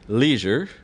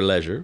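First: It is said in an American accent. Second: It is said in a British accent.

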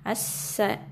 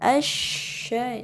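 First: The consonant is a narrow 's' sound. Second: The consonant is a spread 'sh' sound. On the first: The speaker calls it wrong. "jangan asa, nanti itu sin, tidak berhambulan dalam mulut" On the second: The speaker calls it right. "ketika menyebutkan shin, itu udara berhamburan di dalam mulut"

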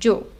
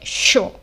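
First: It begins with a 'dj' sound. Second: It begins with an 'sh' sound.

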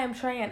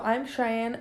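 First: The name is said quickly and casually. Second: The name is said slowly and carefully. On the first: The name is tossed off in passing. The speaker calls it wrong. "Sorry, what was your name?" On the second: The listener needs to catch the name. The speaker calls it right. "If I don't say my name slowly, they don't get it"

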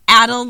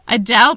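First: The name sounds like the word 'addled'. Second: The name does not sound like 'addled'. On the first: The speaker calls it wrong. "not Adel, like your addled brain?" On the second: The speaker calls it right.

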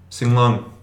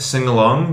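First: The vowel before 'long' is dropped or barely heard. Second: The vowel before 'long' is fully pronounced. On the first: "It's very, very subtle at that point" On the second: "sing-along becomes"

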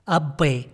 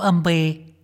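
First: The word is said with a plain b sound. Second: The word is said with an m before b. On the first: The speaker calls it right. "هي أبي بالباء" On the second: The speaker calls it wrong. "مو أمبي"

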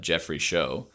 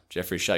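First: The surname's vowel sounds like in 'show'. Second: The surname's vowel sounds like in 'shower'. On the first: The speaker calls it wrong. "I went the wrong way" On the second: The speaker calls it right. "it's shall like shower in the beginning"

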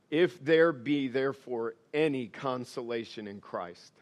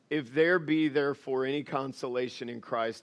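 First: The line is read at a slower pace. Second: The line is read at a fast pace. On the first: The speaker calls it right. "Let me start over" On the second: The speaker calls it wrong. "I feel like I'm reading this too fast"

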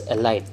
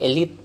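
First: The word is said the Chinese English way. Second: The word is said the usual way. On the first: "they pronounce it as elite" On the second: "So instead of elite"

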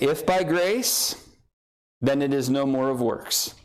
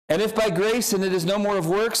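First: It is read slowly. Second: It is read very fast.

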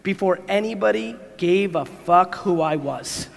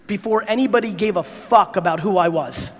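First: It is said slowly. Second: It is said at normal speed.

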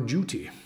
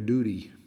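First: It is said in an English accent. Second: It is said in an American accent.

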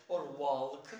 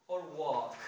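No difference in how they are said.

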